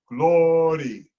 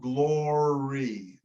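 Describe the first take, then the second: First: The R is a quick tap, like a D. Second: The R is a smooth American-style R. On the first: The speaker calls it right. "I think we want to flip the R" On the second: The speaker calls it wrong. "not glory, not the American R"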